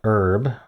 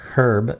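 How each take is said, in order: First: The word is said in a non-British way. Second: The word is said the British way.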